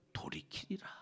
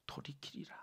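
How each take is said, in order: First: Soft whispered close; whispered ending. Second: 돌이키리라 barely voiced, very soft; hushed repetition. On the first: Acted. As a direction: breathe the word 돌이키리라 out. Reading verse, whispered ending. (돌이키리라를 속삭이듯) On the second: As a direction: let 돌이키리라 hang in a whisper. Repeats key word for emphasis. (돌이키리라를 아주 작게 되뇌듯)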